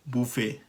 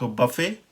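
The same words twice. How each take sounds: First: बुफे as boo-FAY, softer; rounded oo in बुफे; French pronunciation. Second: बफे as buh-FAY; short unrounded uh in बफे; American pronunciation. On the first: Teacher alternates two buffets, French pronunciation. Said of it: "जो हम कहते हैं French version". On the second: Teacher alternates two buffets, American pronunciation. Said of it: "American pronunciation में ये है". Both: Shown as a demonstration.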